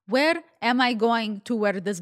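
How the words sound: It is said with a put-on Russian accent.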